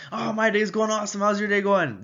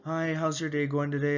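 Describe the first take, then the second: First: Higher, louder overeager answer; mismatched overexcited reply. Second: Said in the usual way. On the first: Shown as a demonstration. Salesman overexcited at a calm customer, higher and louder. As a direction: overdo the energy. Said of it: "instant rapport is lost".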